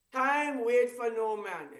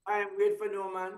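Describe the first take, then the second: First: Slow, with stress on "wait"; corrected saying, slow. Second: Said in the usual way. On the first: Shown as a demonstration. Fixing the proverb for the viewers, slowly stressing "wait". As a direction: lean on "wait" in "Time wait for no man". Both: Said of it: "did I correct that statement".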